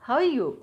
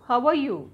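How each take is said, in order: First: The middle word is dropped into a casual blend. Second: Every word is said fully and separately. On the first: The speaker calls it right. "క్యాజువల్గా మనకు బాగా మాట్లాడి అలవాటు ఉన్నట్టుగా ఆ accent తీసుకోండి" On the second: The speaker calls it wrong. "హౌ ఆర్ యూ వద్దు"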